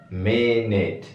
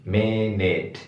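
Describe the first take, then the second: No difference in how they are said.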